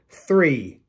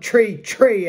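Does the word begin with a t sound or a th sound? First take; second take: th sound; t sound. First: The word begins with a th sound. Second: The word begins with a plain t sound. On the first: This is how people elsewhere say it. "We don't say three here" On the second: This is how people say it locally. "as we say it in my parts"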